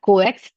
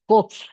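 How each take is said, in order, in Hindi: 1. इस शब्द को दो अक्षरों में बोला जाता है। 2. इस शब्द को एक अक्षर में बोला जाता है। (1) "इट्स नॉट कोएक्स" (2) "तो इसको हम कोक्स पढ़ते हैं"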